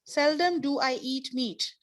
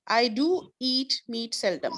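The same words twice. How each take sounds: First: Seldom stressed up front, falling at the end; emphatic inverted order. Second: Said in the usual way. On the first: Shown as a demonstration. Teacher contrasts the inverted sentence with the regular order. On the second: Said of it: "Now the regular order".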